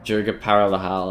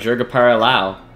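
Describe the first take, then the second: First: An H sound is pronounced in the name. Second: The H sound is left silent in the name.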